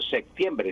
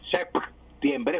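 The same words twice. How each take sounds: First: A k sound is heard before the t. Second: A p sound is heard before the t. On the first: The speaker calls it wrong. "Estoy pronunciando con una C" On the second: The speaker calls it right. "si yo pronuncio correctamente la P, septiembre, juntando los labios"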